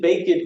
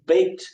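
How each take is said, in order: First: The ending adds an extra 'id' syllable. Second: The ending is a short t sound. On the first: The speaker calls it wrong. "You didn't bake it cookies" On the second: The speaker calls it right. "you baked some cookies"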